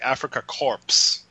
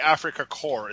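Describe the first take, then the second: First: The final letters of Korps are pronounced. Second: The final letters of Korps are silent. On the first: The speaker calls it right. "In German, you pronounce all the words" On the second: The speaker calls it wrong. "it's not the Afrika Korps"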